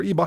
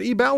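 First: "Ebel" with a reduced second syllable, like EE-bul. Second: "Ebel" with a clear BELL ending. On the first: Host offering another reading of a surname, Ebel as EE-bul. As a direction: say "Ebel" as EE-bul, swallowing the ending. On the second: Host checking a surname with his guest, Ebel as ee-BELL. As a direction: say "Ebel" as ee-BELL, stressing the end. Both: Shown as a demonstration. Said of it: "How do you pronounce his name?".

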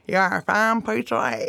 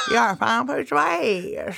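First: Lightly gummy toothless lisp; toothless uncle. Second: Mumbled through gums, laughing at the edges; toothless uncle. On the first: Toothless uncle flirting with wedding guests, gummy mumble. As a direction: say it as if you have no teeth. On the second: Toothless uncle repeating his catchphrase, gummy mumble. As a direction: gum the words like a grandpa without dentures. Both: Retold or imitated.

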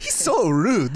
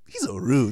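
First: Put-on laughing Japanese accent. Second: Put-on laughing, lightly accented; a hint of Japanese accent. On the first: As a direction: Japanese accent, giggling through it. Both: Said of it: "my Japanese accent came off kind of Italian".

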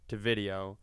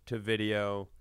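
The two takes are said the same way.

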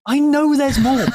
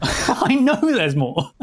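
First: Squeaky high teasing voice; helium voice. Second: Slow, giggling through it; laughing. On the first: Pretend. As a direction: pitch it up like a chipmunk. Repeated, first high take. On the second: Real, not acted. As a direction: drag it out while laughing. Second take, slow and laughing.

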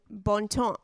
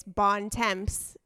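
First: Attempted French pronunciation of "Bon Temps"; French accent. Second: "Bon Temps" read as English, sounding the m, p and s; English pronunciation. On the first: Host trying out the tea brand's name, French accent. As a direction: say "Bon Temps" the French way, silent final consonants. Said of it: "try to say it in a French accent". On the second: Host explaining the brand name, "Bon Temps" pronounced in plain English. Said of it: "in English". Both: Shown as a demonstration.

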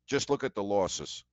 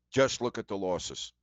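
First: "look" gets the main weight, falling tune; "look" carries the stress. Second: "Just" hit hardest at the start, falling tune; insistent weight on "Just"; stress on just. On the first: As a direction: lean on "look", with the rest of "Just look at the losses" plain. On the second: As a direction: punch "Just", then let "look at the losses" fall away. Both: Real, not acted. Repeats the advice for emphasis.

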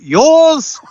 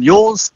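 First: High-pitched, drawn-out call of "Yours!"; mock yell. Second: Higher questioning "Yours?", rising at the end; passing the buck. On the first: Warriors calling off a high ball, mock yell. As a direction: call it out high and loud, falling at the end. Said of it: "gonna be yelling out". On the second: Acted. Fullback to his winger under a bomb, passing the buck. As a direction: toss it hopefully to a teammate as a question. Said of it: "looking across at someone like Rocco Berry".

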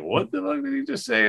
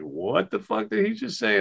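First: Very high, stretched mock astonishment on fuck; stunned disbelief. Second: Much higher, incredulous mock reaction; stunned disbelief. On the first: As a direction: play your own jaw dropping. Teller's own disbelief retold. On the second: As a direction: act out the whole table gasping in shock.

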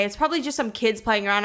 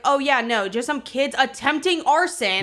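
First: Said in the usual way. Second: Mock agreement, mildly incredulous; retold sarcastic comeback; sarcastic echo. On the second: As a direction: echo their excuse with light sarcasm. Sarcastic echo of the neighbours' excuse.

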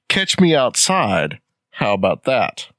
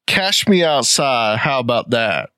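First: Slow "Catch" with a clear tch; translated, enunciated. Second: "Cash" ending in sh instead of tch; slang pronunciation. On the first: Mom translating for the studio audience, enunciated "Catch". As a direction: spell out "Catch me outside" slowly and distinctly. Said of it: "her mom has to translate". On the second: Quoting the unruly girl, slurred "Cash" for catch. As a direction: run "Cash me outside" together, with sh in "Cash". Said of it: "she says something to the effect of". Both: Retold or imitated.

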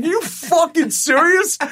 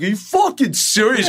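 First: Much higher and slower, drawn out; milk the astonishment even more; stretched disbelief. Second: High, squeaky disbelief; incredulous. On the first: Doug walking up, repeating it in slower, higher disbelief. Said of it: "He walked up, he's like". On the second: Doug gawking at Nicole Kidman greeting him, high incredulous squeak. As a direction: play up the shock. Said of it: "And Doug's like". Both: Retold or imitated.

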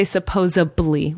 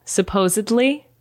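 First: "supposably", sup-POZE-uh-blee; B in place of D. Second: Slow "Supposedly" with a D, sup-POZE-ed-lee; correct pronunciation. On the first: Retold or imitated. Reporting what people say, B in place of D. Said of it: "with a B". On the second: Shown as a demonstration. Naming a word that drives me up a wall, slow correct pronunciation. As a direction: sound the D clearly in "Supposedly". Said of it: "People say supposably with a B".

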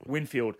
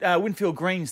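First: Softly recalling the brand name, Winfield; quiet to himself. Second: Said in the usual way. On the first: Real, not acted. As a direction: murmur Winfield to yourself as it dawns. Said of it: "light bulb moment". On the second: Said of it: "Mate, uh, just a pack of those".

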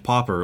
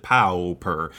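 First: Said in the usual way. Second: "Pauper" with a drawn-out POW first syllable; alternative pronunciation. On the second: Shown as a demonstration. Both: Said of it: "as people prefer to pronounce it".

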